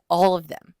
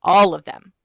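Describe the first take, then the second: First: Said in the usual way. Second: "All" hit much louder; stress on All. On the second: Real, not acted. Reader repeats whom she despises, "All" punched loud.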